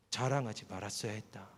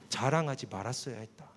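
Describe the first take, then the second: First: Stern inner voice, final. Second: Stern inner voice. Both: Retold or imitated. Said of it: "목소리 하나가 들렸어요".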